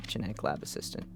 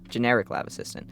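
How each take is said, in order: First: "genetic" said in place of "generic", soft; misreading. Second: "Generic" corrected from "genetic"; corrected word. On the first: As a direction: reads it as "genetic lab assistant". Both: Real, not acted.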